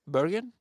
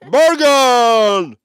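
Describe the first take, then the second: First: Said as a question, rising at the end. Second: Said as an exclamation, falling at the end. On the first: It is a query. The speaker calls it wrong. "than a question mark" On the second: It is a confident statement. The speaker calls it right. "you would more expect an exclamation mark"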